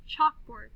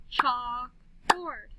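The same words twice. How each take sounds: First: Said in the usual way. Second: CHALKBOARD slowly as chalk, board; slow "Chalk-board" for clapping; clapped syllables. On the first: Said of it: "listen to these words". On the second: Shown as a demonstration. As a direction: split "Chalkboard" into two long beats. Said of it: "then we'll clap the syllables".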